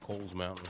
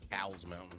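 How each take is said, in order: First: The name's vowel sounds like in coal. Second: The name's vowel sounds like in cow. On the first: The speaker calls it right. "but it's actually Coles" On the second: The speaker calls it wrong. "some people pronounce it Cowles Mountain"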